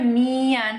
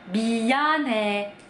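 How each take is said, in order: First: The first sound is a full nasal m. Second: The first sound has no nasal hum, like b. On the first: "Sedangkan kalau kita kan ngomongnya mian" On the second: "orang Korea itu kalau ngomong depannya nggak ada dengungnya, jadi kayak orang bindeng"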